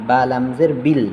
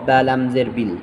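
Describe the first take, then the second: Both takes have the same delivery.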